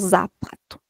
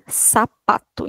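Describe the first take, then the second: First: The word begins with a buzzing z sound. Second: The word begins with a hissing s sound. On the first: The speaker calls it wrong. "e não zapato" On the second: The speaker calls it right. "se lê sapato"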